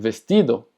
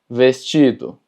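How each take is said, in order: First: The middle syllable sounds like a plain 'ti'. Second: The middle syllable sounds like 'chi'. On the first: "o que digan vestido" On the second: "siempre se va a pronunciar chi"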